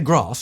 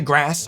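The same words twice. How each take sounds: First: Grass has a long posh British vowel. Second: Grass has a flat American-style vowel.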